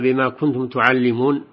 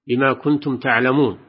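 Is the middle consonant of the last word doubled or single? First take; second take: Doubled; Single. First: The middle consonant of the verb is doubled. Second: The middle consonant of the verb is single. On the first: You teach it to others. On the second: You know it yourselves.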